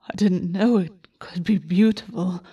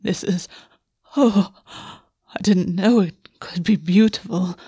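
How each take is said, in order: First: Remembered quote. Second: Breathy whisper, slow, voice catching; breathless wonder, words caught in the throat; catching breath. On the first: Retold or imitated. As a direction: recall the words to himself. August recalls the words. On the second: Acted. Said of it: "sounds catching in the back of his throat".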